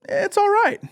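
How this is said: It sounds pleasantly surprised and approving. The film was better than expected. "then you're pleasantly surprised"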